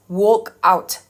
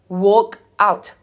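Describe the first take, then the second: No difference in how they are said.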